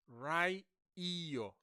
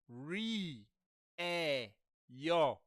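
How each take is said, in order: First: The first vowel sounds like 'eye'. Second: The first vowel sounds like 'eh'. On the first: The speaker calls it wrong. "not rai e yo because that is how you'd say it" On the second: The speaker calls it right. "Say re e yo"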